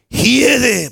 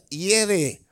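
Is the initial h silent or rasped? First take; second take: rasped; silent. First: It is said with a harsh, raspy initial h. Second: It is said with a silent initial h.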